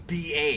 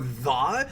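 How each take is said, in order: First: The word begins with a hard d sound. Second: The word begins with a soft th sound. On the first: "it's always da" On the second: "It's never the"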